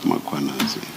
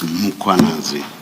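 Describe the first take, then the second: First: The name begins with an m plus a vowel. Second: The name begins with a bare m sound. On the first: The speaker calls it wrong. "not Mkhwanazi" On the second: The speaker calls it right. "There is no A right at the beginning of uh, that first syllable. The A is after the H, so it's Mkhwanazi"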